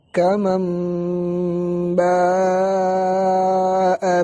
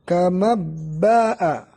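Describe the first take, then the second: First: The n becomes a nasalized m before b. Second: The n is dropped and merged into b. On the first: The speaker calls it right. "contoh dari iqlab" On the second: The speaker calls it wrong. "Bukan juga kama ba'a, karena ini idgham"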